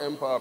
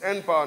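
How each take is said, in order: First: The word begins with an 'em' sound. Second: The word begins with the letter name 'en'. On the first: The speaker calls it wrong. "not Empower" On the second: The speaker calls it right. "it's N-Power"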